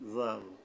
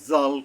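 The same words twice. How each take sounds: First: The letter name is said light and soft. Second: The letter name is said hard and heavy. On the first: The speaker calls it right. "হালকাভাবে নরমভাবে" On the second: The speaker calls it wrong. "হইল না"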